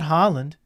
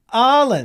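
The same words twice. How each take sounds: First: The name is said with an English pronunciation. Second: The name is said with a Norwegian pronunciation. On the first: The speaker calls it wrong. "Not Holland" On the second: The speaker calls it right. "And they're like"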